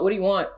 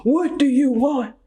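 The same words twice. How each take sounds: First: A hint of the desperate Notebook lover, barely shifted; half-voicing the pleading boyfriend from the movie; Notebook guy impression. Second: Notebook guy impression. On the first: Mocking clueless men, she slips into a faint Notebook plea. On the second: Laughing at herself, she does the Notebook guy's plea again. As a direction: ham up the old dude's desperate demand. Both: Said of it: "Now I sound like old dude from, uh, The Notebook".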